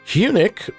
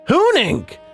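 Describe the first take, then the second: First: The name ends with a plain 'nick' sound. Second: The name ends with a nasal 'nink' sound. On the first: The speaker calls it wrong. "I was calling them eunuch" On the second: The speaker calls it right. "So that's how you pronounce"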